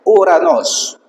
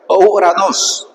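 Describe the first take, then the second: First: Uranos con u sola, alto y marcado; Uranos correcto. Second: Uranos con ou inicial, lento, como error; Uranos mal dicho. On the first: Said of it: "es un diptongo que dice". (pronunciación correcta de Uranos con u) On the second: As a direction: di ouranos lento, como lo dice mal un seminarista. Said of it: "Es una bomba decir". (pronunciación errónea de Uranos) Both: Shown as a demonstration.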